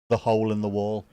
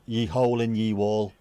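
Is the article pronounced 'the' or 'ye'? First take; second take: the; ye. First: The article is pronounced as 'the'. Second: The article is pronounced as 'ye'. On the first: The speaker calls it right. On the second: The speaker calls it wrong.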